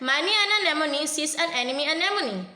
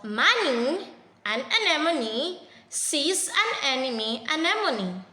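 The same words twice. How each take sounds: First: It is read fast. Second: It is read slowly.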